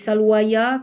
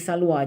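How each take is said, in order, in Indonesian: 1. Kata ini berakhir dengan bunyi ya yang ditambahkan. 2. Kata ini berakhir dengan a panjang biasa. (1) "tak boleh salwaya" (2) "tuan-tuan kena baca salwa"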